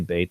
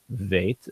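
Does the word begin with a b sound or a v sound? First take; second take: b sound; v sound. First: The word begins with a b sound. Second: The word begins with a v sound. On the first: The speaker calls it wrong. "it doesn't say bait" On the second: The speaker calls it right. "it says veit"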